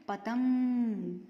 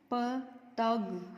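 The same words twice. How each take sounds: First: पतंग with a long hummed ng through the nose; पतंग very slowly, sound resonating in the nose; nasal anusvar. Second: पतग split slowly into parts with no nasal sound; पतग with a plain oral vowel before ग; without the nasal. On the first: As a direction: draw out the nasal end of पतंग. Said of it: "नाक से आवाज़ आती है". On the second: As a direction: say पतग slowly, leaving out the anusvar. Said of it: "जब हमने इस मात्रा को बोला साथ में तो". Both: Shown as a demonstration.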